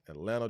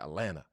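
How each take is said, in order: First: The second T sound is pronounced. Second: The second T sound is dropped. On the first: The speaker calls it wrong. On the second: The speaker calls it right.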